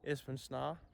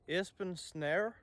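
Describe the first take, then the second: First: The name is said with a native Danish pronunciation. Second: The name is said with an English-style pronunciation. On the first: The speaker calls it right. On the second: The speaker calls it wrong.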